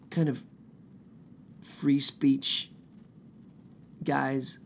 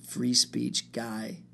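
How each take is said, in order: First: Free speech guys in a whisper; whispered aside. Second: Drawn-out, slow free speech guy; slow mock boast. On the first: Pretend. Sarcastic aside about Proud Boys. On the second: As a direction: stretch free speech out slowly, smugly. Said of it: "because I go".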